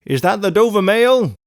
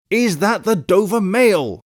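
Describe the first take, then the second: First: Loud, high called question; calling from afar. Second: Slow, high called question; insistent repeated call. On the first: Rider to the coach through mist, loud call. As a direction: call it out across a distance. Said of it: "a man's voice called from the mist". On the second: Rider pressing the guard for an answer, slow insistent call. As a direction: spell it out slowly, calling high. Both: A narrator's reading.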